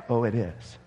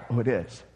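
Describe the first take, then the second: No difference in how they are said.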